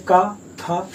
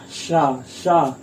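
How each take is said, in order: First: Said in the usual way. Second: शा drawn out with a long hissing breath of air; hissing sha. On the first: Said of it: "ऊष्मा नहीं निकल रही ज्यादा". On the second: Shown as a demonstration. Teacher demonstrates the heat of शा, long hiss. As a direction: push lots of breath through शा. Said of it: "जैसे आप उच्चारण कीजिए शा".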